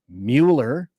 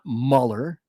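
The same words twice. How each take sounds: First: The name is pronounced literally, as it is spelled. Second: The name is pronounced in its usual, conventional way. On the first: "I love to pronounce the name like it was written"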